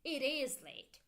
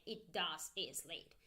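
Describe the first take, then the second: First: "is" lifted for emphasis; emphatic IS, intonation doing the work; stress on IS. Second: Said in the usual way. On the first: Shown as a demonstration. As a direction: lean on the word "is". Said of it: "You make emphasis with your intonation". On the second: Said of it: "You don't say".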